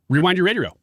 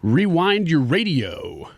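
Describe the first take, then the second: First: It is said quickly. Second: It is said at normal speed.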